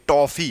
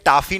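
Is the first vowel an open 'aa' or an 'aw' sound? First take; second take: aw; aa. First: The first vowel lies between 'o' and 'aa'. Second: The first vowel is a plain open 'aa' sound. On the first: The speaker calls it right. "ये टॉफी है" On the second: The speaker calls it wrong. "टाफी नहीं कहते हैं हम"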